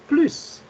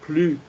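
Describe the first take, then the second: First: The word ends with a clear S sound. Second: The word ends without any S sound. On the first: It means more. "avec le son comme si c'était un double S" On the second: It means no more. "comme plus dans la deuxième phrase"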